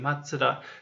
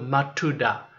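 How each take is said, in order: First: The second syllable starts with a 'ts' sound. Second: The second syllable starts with a plain 't' sound. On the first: The speaker calls it right. "tsu で書いてください" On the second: The speaker calls it wrong. "tu だけで書くと"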